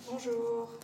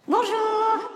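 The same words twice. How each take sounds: First: It is said very quietly. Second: It is said more loudly.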